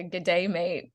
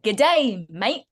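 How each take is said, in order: First: Said in the usual way. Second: Imitating a broad Australian greeting, louder first word; overdone Australian accent. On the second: Actor retelling a friend's attempt at an Australian accent, overdone. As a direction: overplay the Australian accent slightly. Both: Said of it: "It was just a bit too much".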